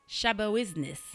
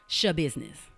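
First: The name is said with a fancy, foreign-sounding twist. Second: The name is said plainly, like the word business. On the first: The name was assumed to be exotic. The speaker calls it wrong. "I thought it was something fancy" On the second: The name is just an ordinary word. The speaker calls it right. "It's literally just Shah Business"

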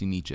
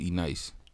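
First: The name is said as 'Aniche'. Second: The name is said as 'E-Nice'. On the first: This is how the name is actually pronounced. The speaker calls it right. "I never knew it was pronounced Aniche" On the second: This is how the speaker used to say the name. The speaker calls it wrong. "I used to call it E-Nice"

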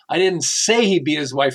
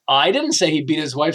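First: The stress is on the word say. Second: The stress is on the word I.

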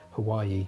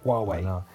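First: It is said like the place name Hawaii. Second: It is said unlike the place name Hawaii. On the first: The speaker calls it wrong. "when I first saw this brand, called it Hawaii" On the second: The speaker calls it right. "But no, Huawei"

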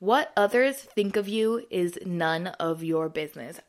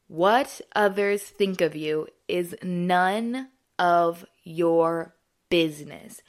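First: It is said in a plain, ordinary way. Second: It is said in a proud, emphatic way.

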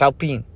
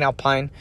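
First: The name is pronounced with French sounds. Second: The name is pronounced with English sounds. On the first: The speaker calls it right. "It's a French team. It's Alpine" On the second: The speaker calls it wrong. "I'm glad I don't call Alpine Alpine. Drives me nuts"

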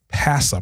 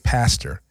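First: The final r sound is dropped, ending in uh. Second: The final r sound is pronounced clearly. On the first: "It's P-A-S-S-A, Pastor Brown" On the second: "We don't say pastor"

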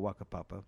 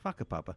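First: The name has an anglicized pronunciation. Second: The name has its Maori pronunciation. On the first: "it's probably safer to say" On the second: "the correct Maori pronunciation is"

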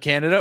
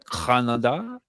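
First: It is said in the speaker's plain accent. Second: It is said in a local Canadian accent.

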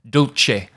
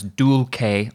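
First: It is pronounced in Italianate church Latin style. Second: It is pronounced in a different Latin style. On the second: "you may hear it pronounced elsewhere as dulce"

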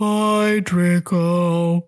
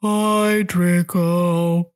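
First: It is said in an impression of Eeyore. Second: It is said in an impression of Eeyore.

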